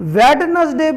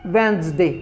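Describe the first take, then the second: First: The d sound is pronounced. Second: The d sound is silent. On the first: The speaker calls it wrong. "वेडनसडे बोलते हैं हम" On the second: The speaker calls it right. "इसका proper pronunciation जो होगा वो वेंसडे होगा"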